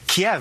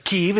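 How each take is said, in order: First: The name is said with Russian pronunciation. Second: The name is said with Ukrainian pronunciation. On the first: This is the form Russians use. "is how Russians say it" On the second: This is the form Ukrainians use. "is how Ukrainians say it"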